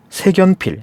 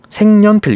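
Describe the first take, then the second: First: The final k links straight into the next syllable. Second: An n sound is inserted before the second syllable. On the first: The speaker calls it wrong. "이게 틀렸다는 겁니다" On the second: The speaker calls it right. "이렇게 읽습니다. 니은이 첨가가 된 거죠"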